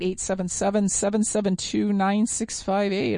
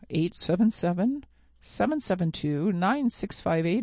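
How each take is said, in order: First: The number is said at a faster pace. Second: The number is said at a slower pace.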